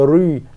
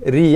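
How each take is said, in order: First: The r sound is heavy and thick. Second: The r sound is light and thin. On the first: The speaker calls it wrong. "bukannya ri" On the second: The speaker calls it right. "ri eh nipis"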